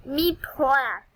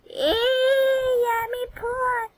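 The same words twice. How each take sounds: First: Said in the usual way. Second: Much higher cartoonish voice; silly squeaky voice. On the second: Repeats joke in a put-on voice.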